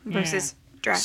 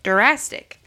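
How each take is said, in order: First: The d and r are joined with no vowel. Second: An extra vowel sound follows the first d.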